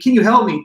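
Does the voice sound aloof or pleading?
pleading. The voice sounds pleading and urgent. The speaker is desperate for help. "if it sounds like it's pleading"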